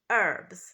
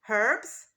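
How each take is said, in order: First: The word starts without any H sound. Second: The word starts with an audible H sound. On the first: "in American English, the first letter is not pronounced" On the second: "in British English, the first letter, the H, is pronounced"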